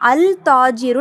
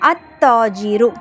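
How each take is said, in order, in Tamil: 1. L ஒலி T க்கு முன்னால் உச்சரிக்கப்படுகிறது. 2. L ஒலி விடப்படும், T இரட்டிக்கப்படும். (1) "அல் தாஜிரு நம்ம வாசிக்கக்கூடாது" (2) "டைரெக்டாக அலிஃபை தாவோட இணைச்சிடணும்"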